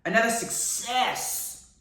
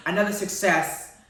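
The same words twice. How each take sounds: First: "success" stretched out slowly with a long hiss; drawn-out emphasis. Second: Said in the usual way. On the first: Real, not acted. Vlogger praising the series, "success" savoured and drawn out. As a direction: linger on the s sounds of "success".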